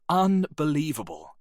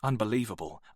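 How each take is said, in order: First: Exasperated. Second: Said in the usual way. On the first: Acted. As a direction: let the anger boil over on Unbelievable. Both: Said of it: "Arnold was turning red".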